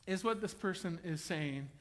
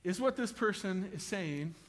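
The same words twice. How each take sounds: The two takes are said the same way.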